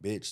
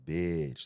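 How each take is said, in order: First: The word is said short and quick. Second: The word is drawn out long.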